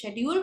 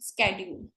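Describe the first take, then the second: First: The word begins with an 'sh' sound. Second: The word begins with an 'sk' sound. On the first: "India वाले और British वाले इसको शेड्यूल बोलते हैं" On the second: "America वाले इसको वो स्केड्यूल बोलते हैं"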